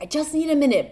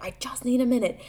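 First: High, sharp cry of I just need a minute; mock yell for space; retold scream. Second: Breathy whisper of I just need a minute; whispered plea. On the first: Mom retelling snapping at her kids, a mild mock yell. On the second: Retold or imitated. Mom retelling begging her clinging kids, whispered. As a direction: hush it out, strained. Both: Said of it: "but, like, I scream".

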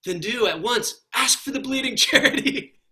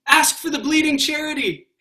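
First: Higher, louder, breaking into a laugh; laughing quote. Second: Much higher, louder plea; urgent plea. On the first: Retold or imitated. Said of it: "And he says". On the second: Acted. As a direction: beg him to ask. Solid person urges the ghost.

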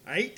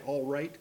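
First: Aight clipped to one syllable; gang slang. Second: Said in the usual way. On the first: Retold or imitated. Imitating his sister's gang word aight. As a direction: say aight, dropping the l and r. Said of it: "you say". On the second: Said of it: "you don't say".

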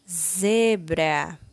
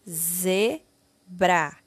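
First: Said in the usual way. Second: ZEBRA split into two separate syllables, ze, bra. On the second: Shown as a demonstration. Teacher reading a word for pupils to copy, syllable by syllable. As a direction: sound out ZEBRA slowly with a gap between syllables. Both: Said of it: "leia e copie".

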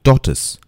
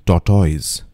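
First: "Tortoise" said TAW-tus; "Tortoise" ending in a short tus; careful "Tortoise", taw-tus; correct pronunciation. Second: "tortoise" said TAW-toyz; "tortoise" ending in toyz; mispronounced "tortoise", taw-toyz; wrong pronunciation. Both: Shown as a demonstration.

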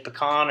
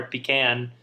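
First: Pecan said puh-KAHN; "pecan" with weak first syllable, then "kahn"; one accepted pronunciation. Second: Pecan said PEE-can; "pecan" with "pee" and then "can"; other accepted pronunciation. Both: Shown as a demonstration. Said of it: "could be said pecan or pecan".

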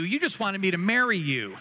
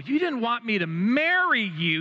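First: "marry" meaning to perform the ceremony, said with relief; hammed-up relieved realization. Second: High, loud, stress on "marry" as wedding him; "marry" meaning to wed, said with relieved dawning; hammed-up relieved realization. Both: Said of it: "And I'm like".

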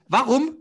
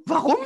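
First: Warum rising high and loud; rising why. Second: Warum falling from high; falling why. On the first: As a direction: ask Warum with a high rise. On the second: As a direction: say Warum high then dropping. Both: Real, not acted. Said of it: "repeats question".

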